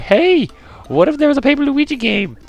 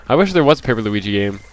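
First: Squeaky falsetto, very high; excited mock squeal, way up high; high-pitched self-impression. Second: Said in the usual way. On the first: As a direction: imitate your past self in a silly falsetto. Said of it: "we were like".

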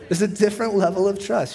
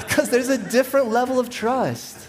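First: Said in the usual way. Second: Higher, laughing through the words. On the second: Real, not acted. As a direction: say it while still laughing. Still laughing at his joke.

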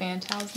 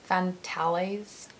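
First: Fantals said in two syllables, FAN-tals; short Fantals rhyming with pals; two-syllable pronunciation. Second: Fantales said slowly in three syllables, fan-TAH-leez; drawn-out Fantales, ending in leez; careful pronunciation. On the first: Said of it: "I thought it said Fantals". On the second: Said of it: "I don't know how to pronounce it". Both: Shown as a demonstration.

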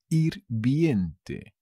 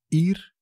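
First: Said in the usual way. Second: "Hirviente" with long pauses between syllables; teacher's split-up "Hirviente". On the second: Shown as a demonstration. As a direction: break "Hirviente" into separate, spaced beats. Word repeated split up for learners.

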